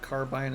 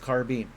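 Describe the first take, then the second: First: The last syllable rhymes with 'fine'. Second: The last syllable rhymes with 'seen'. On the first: The speaker calls it wrong. "It feels like it should be bine" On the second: The speaker calls it right. "It doesn't feel like it should be bean"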